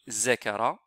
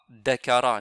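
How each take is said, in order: First: The word begins with a buzzing z sound. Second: The word begins with a hard d sound. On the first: "ni zakara" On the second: "on ne lit pas dakara"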